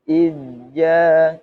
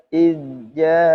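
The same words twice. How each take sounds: Both takes have the same delivery.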